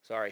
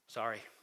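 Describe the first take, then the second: First: The word is tossed off flatly and dismissively. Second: The word is said earnestly and sincerely. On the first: The apology is only said, not meant. The speaker calls it wrong. "saying you're sorry" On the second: The apology is truly meant. The speaker calls it right. "truly being sorry"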